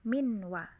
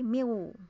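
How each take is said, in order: First: The n sound is clearly pronounced. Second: The n sound is dropped and merged. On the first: "Tapi kalau idhar berarti min wa gitu" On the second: "Kalau di tajwid dasar kan menjadi miu. Nunnya hilang"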